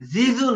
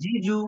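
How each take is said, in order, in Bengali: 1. ব্যঞ্জনধ্বনিটি 'z'-এর দিকে ঝুঁকে যায়। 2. ব্যঞ্জনধ্বনিটি পরিষ্কার 'j' ধ্বনি।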